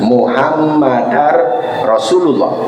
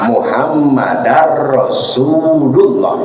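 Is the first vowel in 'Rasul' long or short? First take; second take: short; long. First: The first vowel of Rasul is clipped short. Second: The first vowel of Rasul is drawn out long. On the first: It suggests the plural, messengers. The speaker calls it wrong. "Jadi jangan Muhammadar Rasulullah. Nah, jangan begitu" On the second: It names one single messenger. The speaker calls it right. "jangan pendek, harus pan panjang"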